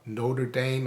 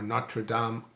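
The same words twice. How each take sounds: First: It is said in an American way. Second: It is said in a French-style way.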